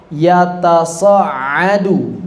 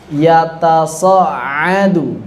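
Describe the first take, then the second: The two takes are said the same way.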